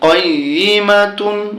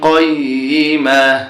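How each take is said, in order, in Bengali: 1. শব্দটি পূর্ণ -tun দিয়ে শেষ হয়েছে। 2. শব্দটি ছোট হয়ে শেষ হয়েছে, -tun ছাড়া।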